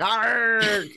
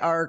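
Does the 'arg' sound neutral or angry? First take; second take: angry; neutral. First: It is said in an angrier way. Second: It is said in a plain, neutral way.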